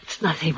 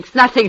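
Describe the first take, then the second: First: Soft, low "It's nothing" under the breath; hushed denial. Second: Said in the usual way. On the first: Acted. Dying woman hushes her lover's worry, soft and low. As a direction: brush it off softly, barely voiced.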